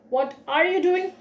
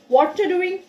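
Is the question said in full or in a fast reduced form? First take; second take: full; reduced. First: Every word is said fully at a plain pace. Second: The words are run together quickly and shortened.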